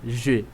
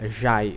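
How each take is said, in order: First: The vowel is a single steady 'é' sound. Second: The vowel glides like Portuguese 'ai'. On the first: The speaker calls it right. "você diria je" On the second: The speaker calls it wrong. "você não diria jai aí"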